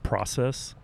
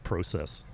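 First: It is said in a non-Canadian accent. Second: It is said in a Canadian accent. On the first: "Instead of process" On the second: "they say process"

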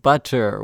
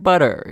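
First: The middle consonant is a crisp T sound. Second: The middle consonant is a soft D sound. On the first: "instead of butter with that T sound" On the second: "it's often pronounced with the D sound, like I just did"

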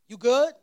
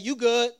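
First: It sounds like a concerned question about wellbeing. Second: It sounds dismissive, telling someone to back off.

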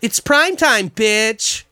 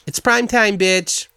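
First: The line is said with lively, expressive intonation. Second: The line is said flat, with no intonation. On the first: "Not even like that" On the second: "Not even like intonation whatsoever. Just like"

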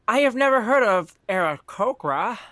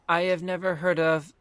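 First: It is said in an older lady's voice. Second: It is said in a different, unintended voice.

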